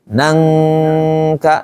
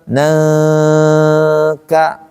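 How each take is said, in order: First: The ng has full tongue contact at the back. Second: The ng is loose, without full tongue contact. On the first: The speaker calls it right. "tapi nangka, nempel tuh" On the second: The speaker calls it wrong. "Jadi bukan nangka"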